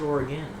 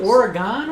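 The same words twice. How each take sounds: First: "Oregon" ending in a weak "gun"; reduced final vowel. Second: "Oregon" ending in an open "gone"; full final vowel. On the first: Co-host offers the other pronunciation, "Oregon" ending like "gun". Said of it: "or is it Oregon?". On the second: Co-host questions the pronunciation, "Oregon" ending like "gone". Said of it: "Is it Oregon or is it Oregon?". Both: Shown as a demonstration.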